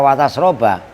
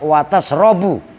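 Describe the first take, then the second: First: The verb ends with a final 'a' vowel. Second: The verb ends with a final 'u' vowel. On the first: "Itu kalau dibaca watas roba" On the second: "dalam keadaan rofa"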